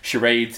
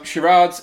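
First: It is said with the American pronunciation. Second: It is said with the British pronunciation. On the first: This form is a corruption of the original. The speaker calls it wrong. "Charades is a corruption by those Yanks" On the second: This form is closer to the original French. The speaker calls it right. "charades is the British term and is also truer to the French"

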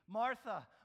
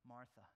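First: The name is called frantically with urgency. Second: The name is called softly and gently.

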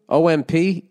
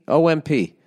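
No difference in how they are said.

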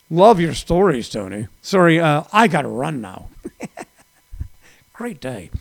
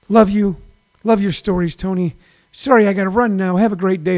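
First: It is said in a snarky, sarcastic tone. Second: It is said in a nice, warm tone.

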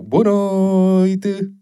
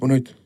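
First: It is said warmly, trying to sound friendly. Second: It is said quickly, as if in a hurry.

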